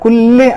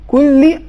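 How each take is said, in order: First: Said with an Urdu accent, ending like e. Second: Said with an Arabic accent, ending like i. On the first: The speaker calls it wrong. "یہ اردو لہجے میں ہو پایا" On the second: The speaker calls it right. "عربی لہجہ"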